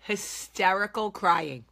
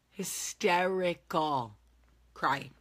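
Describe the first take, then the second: First: Stretched, slow and louder; emphatic. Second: Slow, hushed Hysterical crying falling to a whisper; fading repeat. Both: Shown as a demonstration.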